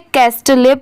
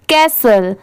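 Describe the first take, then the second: First: The t and final e are both sounded. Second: The t is silent; it ends in 'sul'. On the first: The speaker calls it wrong. "बहुत सारे लोग इसे कैस्टले पढ़ते हैं, but नहीं" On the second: The speaker calls it right. "इसकी sound क्या आती है, कैसल की"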